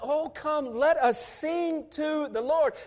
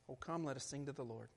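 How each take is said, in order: First: It is said as a joyful exclamation. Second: It is said in a solemn preacher tone.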